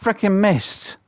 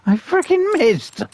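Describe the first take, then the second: First: Loud, high cry of frustration; frustrated outburst. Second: Louder, higher, slow stretched yell; furious shout. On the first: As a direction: vent the miss at full volume. Hunter just missed the shot. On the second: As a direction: drag it out in disbelief and rage. Repeats it even angrier. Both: Real, not acted.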